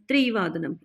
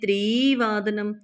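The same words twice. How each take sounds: First: The vowel after tr is short. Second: The vowel after tr is long. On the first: The speaker calls it right. "त्रि छोटी की मात्रा है" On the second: The speaker calls it wrong. "ये नहीं बोला हमने"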